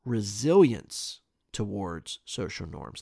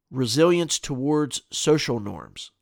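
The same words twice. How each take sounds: First: Slower, softer repeat of "Resilience towards social norms"; puzzled. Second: Said in the usual way. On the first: Real, not acted. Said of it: "slow puzzled repeat". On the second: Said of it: "reads topic, then repeats".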